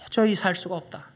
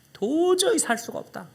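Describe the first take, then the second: First: Said in the usual way. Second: Pleading mother. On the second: Retold or imitated. Mother's line repeated, slowed.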